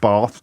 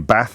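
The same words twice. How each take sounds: First: The word is said in a posh English accent. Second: The word is said in a northern English accent.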